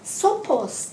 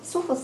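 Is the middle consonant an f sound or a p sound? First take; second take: p sound; f sound. First: The middle consonant is a p sound. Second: The middle consonant is an f sound. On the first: "ソポスとも言われるようですね" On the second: "ソフォスなんですけれども"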